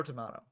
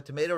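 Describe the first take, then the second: First: "tomato" with a broad AH, tuh-MAH-toe; British pronunciation. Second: "tomato" with a long AY, tuh-MAY-toe; American pronunciation. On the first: Commentator polling viewers, "tomato" said with AH as in ma. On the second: Commentator polling viewers, "tomato" said with AY as in may. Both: Shown as a demonstration. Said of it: "What do you all say?".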